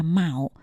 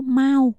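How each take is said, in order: First: Mão with a low Mandarin tone; Chinese pronunciation. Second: Mao on a high, level Mandarin tone; Chinese word for cat. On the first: Co-host explaining the zodiac word, Chinese pronunciation of Mão. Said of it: "trong tiếng Trung nó gọi đọc là". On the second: Co-host comparing it with the cat word, Chinese pronunciation of Mao. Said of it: "âm nó hơi giống với lại cái chữ". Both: Shown as a demonstration.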